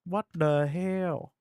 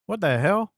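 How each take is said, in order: First: Slow, drawn-out what the hell; stunned repeat; slow disbelief. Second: Loud, high what the hell; real amazed exclamation; surprised outburst. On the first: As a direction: stretch every word out in disbelief. Repeats reaction, slower. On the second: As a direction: blurt it out in shock. Reacts to ladder launch trick. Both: Real, not acted.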